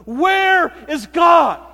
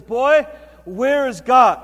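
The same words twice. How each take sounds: First: Very loud, high, slow shout; furious shout. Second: Loud, slow, drawn-out demand; booming pastor. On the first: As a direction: slam the question home after banging the fist. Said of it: "banged his fist". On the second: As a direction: press the boy hard. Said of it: "this big booming voice". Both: Retold or imitated.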